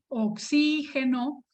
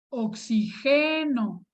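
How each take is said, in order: First: The stress is on the second syllable. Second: The stress is on the third syllable. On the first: It names the gas, a noun. "Es una palabra esdrújula" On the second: It is a present-tense verb form. "es una palabra grave"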